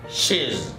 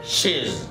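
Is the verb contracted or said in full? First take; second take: contracted; contracted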